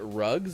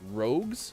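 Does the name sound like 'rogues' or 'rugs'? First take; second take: rugs; rogues. First: The vowel sounds like the one in 'rugs'. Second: The vowel sounds like the one in 'rogues'. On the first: "is it Rugs if I just say it like that?" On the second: "I was told that it was Rogues"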